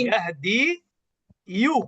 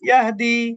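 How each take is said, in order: First: The word ends in a 'yu' syllable. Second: The word ends in an 'ee' sound. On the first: The speaker calls it wrong. "এখানেও কিন্তু পড়া কঠিন।" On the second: The speaker calls it right. "পেশটাকে আমি সাকিন বানায় দেব।"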